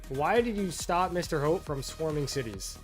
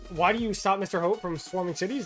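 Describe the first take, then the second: First: It is said very slowly. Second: It is said at normal speed.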